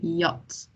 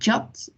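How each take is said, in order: First: It starts with a Y sound. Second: It starts with an English J sound. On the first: The speaker calls it right. "We say yacht. So it's not like jam" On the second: The speaker calls it wrong. "we don't say uh, jat"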